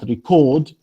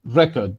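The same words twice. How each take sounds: First: It is pronounced the way the verb is. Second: It is pronounced the way the noun is. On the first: It names an action. "record is a verb" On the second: It names a thing. "this is noun"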